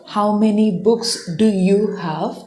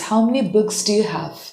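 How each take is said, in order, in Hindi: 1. 'Do you' पूरी तरह बोला जाता है, शब्द-दर-शब्द। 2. 'Do you' आपस में जुड़कर और छोटा होकर बोला जाता है। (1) "It's not" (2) "you have to say like this"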